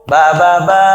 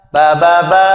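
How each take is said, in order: Both takes have the same delivery.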